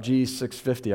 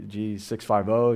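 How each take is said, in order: First: "six fifty" read as one number, six then fifty; casual "G six fifty", number grouped. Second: "six five oh" spelled out one digit at a time; "oh" said for the final zero. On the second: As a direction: slowly count off "six", "five", "oh". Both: Shown as a demonstration. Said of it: "I don't know how you say it".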